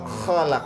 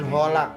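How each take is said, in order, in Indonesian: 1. Kata ini diawali dengan kh serak dari tenggorokan. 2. Kata ini diawali dengan bunyi h lembut. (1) "Tapi kha khalaq" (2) "jangan holak"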